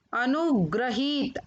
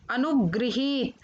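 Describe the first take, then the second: First: अनुग्रहीत with "gra" in the middle; mispronounced अनुगृहीत. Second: Said in the usual way. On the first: Shown as a demonstration. Teacher showing children the error, अनुग्रहीत with "gra". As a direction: say gra, not gri, in अनुग्रहीत. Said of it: "अशुद्ध शब्द मैंने रखे हैं". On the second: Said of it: "फिर उनका शुद्ध उच्चारण".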